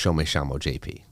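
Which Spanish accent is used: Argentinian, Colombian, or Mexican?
Argentinian. It is said in Argentinian Spanish, ll sounding like sh. "And in Argentina, it'd be ... double L's and the Y's are pronounced as S H's"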